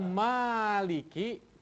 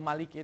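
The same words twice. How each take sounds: First: The first vowel is long. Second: The first vowel is short. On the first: It means the one who owns. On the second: It means the one who reigns as king.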